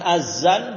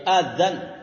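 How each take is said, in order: First: The middle consonant is a plain z sound. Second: The middle consonant is a voiced th sound. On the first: The speaker calls it wrong. "bukan pakai z. Bukan azan" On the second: The speaker calls it right. "Pakai zal ya, pakai zal"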